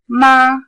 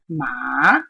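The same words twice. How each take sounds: First: It is said with the high level first tone. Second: It is said with the dipping third tone. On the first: It means mother. "The first tone" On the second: It means horse. "If I use the third tone"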